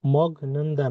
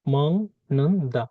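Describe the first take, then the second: First: "মগ নুন দা" with a hard g stop; unchanged pronunciation. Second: "মং নুন দা" with ng in place of g; nasalised pronunciation. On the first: Teacher showing learners what not to say, unchanged pronunciation. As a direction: say "মগ নুন দা" slowly, g not turned to ng. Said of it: "মগ নুন দা না". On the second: Teacher giving learners the changed sound, nasalised pronunciation. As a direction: break up "মং নুন দা", humming the ng. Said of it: "এটার উচ্চারণ হবে". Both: Shown as a demonstration.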